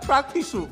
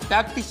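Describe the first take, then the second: First: The word ends with an added vowel sound. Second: The word ends on a bare consonant sound. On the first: The speaker calls it right. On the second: The speaker calls it wrong. "ಅದು ಪ್ರಾಕ್ಟೀಸ್ ಅಲ್ಲ"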